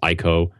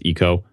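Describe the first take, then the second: First: The name is said with an English-style pronunciation. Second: The name is said with a Japanese pronunciation. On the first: The speaker calls it wrong. "that I always call Ico" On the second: The speaker calls it right. "the apparently correct pronunciation in Japanese is Ico"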